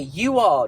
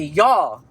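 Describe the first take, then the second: First: It is said as two full separate words. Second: It is said as one contracted syllable. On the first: "Instead of looking at your friends and being like" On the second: "You'll be like"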